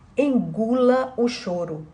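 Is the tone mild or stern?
mild. It is said in a mild, calm tone. "E não era nesse tom"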